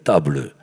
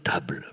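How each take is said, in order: First: The final e is pronounced as an extra syllable. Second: The final e is silent, one syllable. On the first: This is how southern schoolchildren recited it. The speaker calls it wrong. "il fallait pas dire" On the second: This is the pronunciation the teacher demanded. The speaker calls it right. "il fallait dire"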